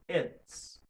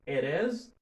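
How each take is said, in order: First: The two words merge into one syllable. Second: Both words are said fully and separately.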